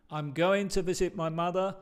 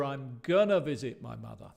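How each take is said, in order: First: Said in the usual way. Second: "gonna" reduced to a quick kʌnə; relaxed gonna. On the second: Shown as a demonstration. Teacher contrasts the formal form with casual "gonna". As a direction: slur "going to" into "gonna", casual. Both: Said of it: "con las dos diferentes formas".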